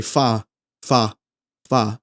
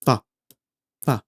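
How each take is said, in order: First: Fa glided into uh, a diphthong; lazy English fa with an added uh; lazy American fa. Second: Fa with one clean vowel; pure Italian fa. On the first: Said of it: "we might just be lazy and say". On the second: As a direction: keep fa a single pure vowel. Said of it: "it has to be one". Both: Shown as a demonstration.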